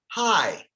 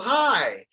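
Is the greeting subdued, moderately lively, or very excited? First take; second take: subdued; moderately lively. First: It is said quietly with low energy. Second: It is said with somewhat more energy.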